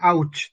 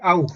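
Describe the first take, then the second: First: The vowel ends with a 'ch' sound. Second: The vowel is a plain 'ow' sound. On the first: The speaker calls it wrong. "bukan ouch" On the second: The speaker calls it right. "tapi au"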